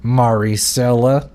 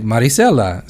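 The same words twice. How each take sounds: First: Maricela said the Anglicized way, with an English r; mock his English-style Maricela; imitated mispronunciation. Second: Maricela said the Spanish way, with a tapped r; her own pronunciation. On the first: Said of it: "pretty much supposed to pronounce it". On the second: Retold or imitated. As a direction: say Maricela as its owner does, tapped r. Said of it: "she said it like that".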